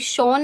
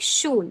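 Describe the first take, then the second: First: The vowel is a plain open 'o' sound. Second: The vowel is a rounded front 'ü' sound. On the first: The speaker calls it wrong. "ये शॉन नहीं है" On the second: The speaker calls it right. "दोबारा से बता देती हूँ मैं"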